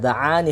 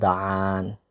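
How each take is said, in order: First: The final vowel is short. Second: The final vowel is lengthened. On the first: The speaker calls it right. "i seharusnya satu harokat dan tidak ada huruf ya di sana" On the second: The speaker calls it wrong. "Dia menambahkan huruf ya setelah ain"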